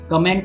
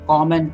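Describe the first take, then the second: First: The stress is on the second syllable. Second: The stress is on the first syllable. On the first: It is used as a verb. "Comment is the verb form" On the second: It is used as a noun. "comment is the noun form"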